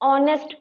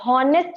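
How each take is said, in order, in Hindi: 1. इस शब्द की शुरुआत सीधे स्वर की आवाज़ से होती है। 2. इस शब्द की शुरुआत में h की आवाज़ सुनाई देती है। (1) "ऑनेस्ट पढ़ते हैं। ऑनेस्ट में साउंड क्या सुनाई दे रहा है वॉवेल का।" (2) "इसको हॉनेस्ट ना पढ़कर"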